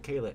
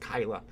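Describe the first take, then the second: First: The first vowel sounds like the vowel in day. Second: The first vowel sounds like the vowel in sky. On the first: The speaker calls it wrong. "It's not Kayla" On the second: The speaker calls it right. "It's Kyla"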